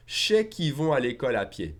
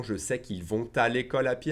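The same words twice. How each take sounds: First: "je sais" merged into "ché", no T sound after "vont"; no liaison. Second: Said in the usual way. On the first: Shown as a demonstration. Teacher showing faster French, "je sais" as ché and "vont" without liaison. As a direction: contract to ché qu'i vont, "vont" unlinked from "à". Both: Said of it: "I won't make the liaison".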